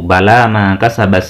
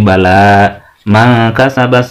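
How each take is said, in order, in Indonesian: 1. Dibaca langsung tanpa jeda. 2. Berhenti sebentar setelah kata pertama.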